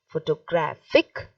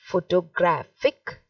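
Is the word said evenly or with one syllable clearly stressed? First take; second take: stressed; stressed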